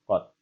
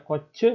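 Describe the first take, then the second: First: The word ends with a clipped t consonant. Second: The word ends with an added vowel sound. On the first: The speaker calls it right. "melainkan kot" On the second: The speaker calls it wrong. "Tidak dibaca koce"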